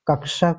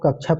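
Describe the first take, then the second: First: The middle sound is a k plus sh cluster. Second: The middle sound is an aspirated chh sound. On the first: The speaker calls it right. "क और स से मिलकर के बना है" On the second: The speaker calls it wrong. "छ पढ़ा जाता है तो जो है गलत हो जाती है"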